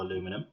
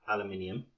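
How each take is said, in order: First: "aluminum" said the American way, four syllables a-LU-mi-num; American pronunciation. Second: "aluminium" said the British way, five syllables al-u-MIN-i-um; British pronunciation. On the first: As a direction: say "aluminum" with stress on LU and no extra syllable. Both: Shown as a demonstration. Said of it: "depending on where you're from".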